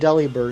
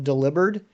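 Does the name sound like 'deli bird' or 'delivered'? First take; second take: deli bird; delivered. First: The name sounds like 'deli bird'. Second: The name sounds like 'delivered'. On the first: The speaker calls it wrong. "I called it Delibird" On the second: The speaker calls it right. "train myself to call it Delivered because I think that makes more sense"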